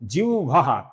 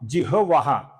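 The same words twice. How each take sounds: First: The v sound comes before the h sound. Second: The h sound comes before the v sound. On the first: The speaker calls it wrong. "जो कि पूर्णतया गलत है" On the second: The speaker calls it right. "इसका सही उच्चारण है पहले ह फिर वो"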